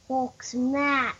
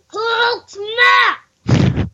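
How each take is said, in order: First: It is said flatly, without force. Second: It is yelled loudly with force.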